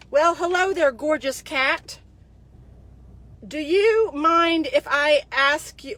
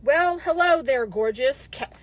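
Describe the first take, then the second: First: Slow, hammed-up sleazy greeting; mocking a creepy flirt. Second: Lightly voiced sleazy flirt, drawn out; mocking a creepy flirt. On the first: Reading the soldier's flirty message aloud, slow and mocking. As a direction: stretch it out like a cheesy pickup line. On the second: Mocking the soldier's message to her followers, a touch of sleaze. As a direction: read his line like a cheesy pickup. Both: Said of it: "here's the message he sends me".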